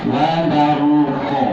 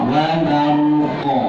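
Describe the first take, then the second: The two takes are said the same way.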